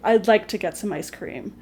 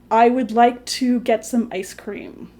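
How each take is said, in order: First: I would is contracted to I'd. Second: I would is said as two full words. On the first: The speaker calls it right. "when you're speaking, you'd say" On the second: The speaker calls it wrong. "Nobody would really say"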